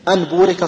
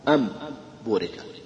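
First: A clear n sound comes before the b. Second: An m sound comes before the b.

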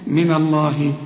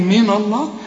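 First: The first syllable is said light and thin. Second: The first syllable is said heavy and full. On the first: The speaker calls it right. "رققها" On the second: The speaker calls it wrong. "تيجي تفخمها لي وتقول لي من الله"

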